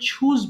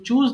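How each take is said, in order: First: The first sound is an aspirated ch. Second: The first sound is a plain, unaspirated ch. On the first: The speaker calls it right. "It should be ছ" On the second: The speaker calls it wrong. "চ is wrong pronunciation"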